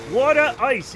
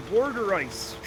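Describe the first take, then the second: First: "Water ice" as "waw-tuh ice"; "Water ice" with no R in the first syllable; own pronunciation. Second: "water ice" slowly as "wor-der ice"; "water ice" mimicked as "wor-der ice"; disowned pronunciation. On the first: Shown as a demonstration. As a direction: say "Water ice" loudly with a round "aw". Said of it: "it's too different". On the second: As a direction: put an intrusive R in "water ice". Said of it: "My wife say water ice".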